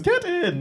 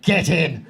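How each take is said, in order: First: It is said in a happy, cheerful tone. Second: It is said in a harsh, venomous tone. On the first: "No one ever says it in a happy way. No one ever goes, get in. No one ever says it like that" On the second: "It's always dripping with venom when you guys say it"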